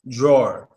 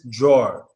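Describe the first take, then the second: Both takes have the same delivery.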